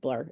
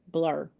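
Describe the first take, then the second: First: The word is said plainly as one short syllable. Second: The word is exaggerated with heavy, drawn-out stress. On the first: The speaker calls it right. "No, it's just blur. It's just one syllable" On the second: The speaker calls it wrong. "Why was I overstressing it?"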